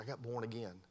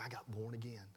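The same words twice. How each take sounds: First: Said in the usual way. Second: Hushed, voiceless whisper of the confession. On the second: Retold or imitated. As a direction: breathe it out as a secret whisper. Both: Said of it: "You got what?".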